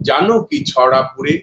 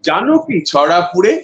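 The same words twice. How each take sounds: First: The line is spoken at a middle pitch level. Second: The line is spoken at a high pitch level. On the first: "এটা লিপটাম two" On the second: "লিপটাম three"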